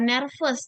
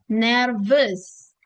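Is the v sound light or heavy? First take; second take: light; heavy. First: The v sound is light. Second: The v sound is heavy. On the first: The speaker calls it wrong. "bukan nervous" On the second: The speaker calls it right. "V itu dia harus berat"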